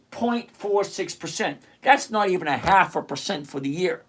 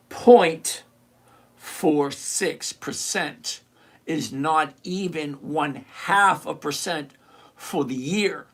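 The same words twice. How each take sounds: First: Said in the usual way. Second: Slow, spaced out, with pauses between phrases; slower repeat. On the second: Shown as a demonstration. Repeating the yield for Josh so it sinks in, slower. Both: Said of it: "I'm gonna say it again slower".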